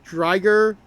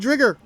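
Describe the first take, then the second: First: The first vowel rhymes with tiger. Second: The first vowel does not rhyme with tiger. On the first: This is the official name. "pronounced as Driger, as in tiger" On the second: This follows the dubbed version. "I'm still pronouncing it as Drigger"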